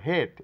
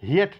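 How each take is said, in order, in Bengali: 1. স্বরধ্বনিটি একটি ধ্বনি হিসেবে উচ্চারিত হয়। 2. স্বরধ্বনিটি দুই ভাগে ভাগ হয়ে উচ্চারিত হয়। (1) "এ সাইলেন্ট" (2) "হিয়েট না বলে"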